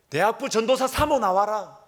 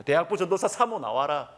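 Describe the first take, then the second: First: High, loud imitation of a furious mother; mock bellowed summons, drawn high; retold angry yell. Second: Milder, half-voiced mock shout; raised-pitch echo of a mother's holler; retold yell. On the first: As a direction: holler it out like someone demanding a showdown. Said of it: "고함을 치는 것입니다". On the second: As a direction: imitate the angry summons at reduced force. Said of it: "고래고래 막 가음을 지르는".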